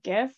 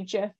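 First: The word begins with a hard G sound. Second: The word begins with a soft J sound. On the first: "with a hard G like I do" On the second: "like the peanut butter"

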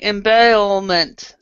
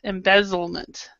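First: The z sound in the middle is dropped. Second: The z sound in the middle is clearly pronounced. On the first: The speaker calls it wrong. "you're doing embezzlement. So that's how you're sounding" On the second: The speaker calls it right. "So we need to say embezzlement"

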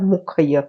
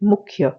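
First: A full vowel separates the kh and the y. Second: The kh joins directly onto the y. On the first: The speaker calls it wrong. "આપણે એમ નથી કહેતા" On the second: The speaker calls it right. "આપણે કહીએ છીએ મુખ્ય, કારણ કે આ જે ખ છે એ હાફ"

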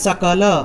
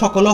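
First: The first consonant is a dental s. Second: The first consonant is not a dental s. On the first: This is the correct Sanskrit way of saying it. The speaker calls it right. "সংস্কৃতে যদি শুদ্ধরূপে বলতে চাই তাহলে বলতে হবে সকল" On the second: This is the everyday Bengali way of saying it. The speaker calls it wrong. "আমরা সকল বাংলায় যদি বলি তাহলে সকল হয়"

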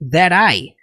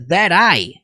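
First: The two words are joined into one. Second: The same.

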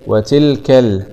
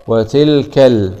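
Both takes have the same delivery.

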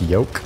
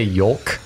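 First: The L sound is left silent. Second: The L sound is clearly pronounced. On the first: "you're not supposed to pronounce the L. That it's more like yolk" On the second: "I always say yolk"

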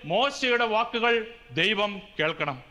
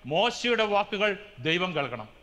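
Both takes have the same delivery.

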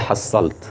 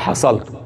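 First: The middle consonant is doubled and lengthened. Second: The middle consonant is single and short. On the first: The speaker calls it wrong. "فما تقولش حصلت لأن تكسر البيت" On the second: The speaker calls it right. "بالفتح دون تشديد"

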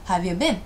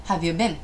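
First: The words are squeezed together into one chunk. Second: The words are squeezed together into one chunk.

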